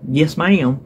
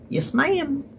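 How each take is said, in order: First: It sounds stiff, like answering a boss. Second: It sounds warm, like a polite Southern gentleman.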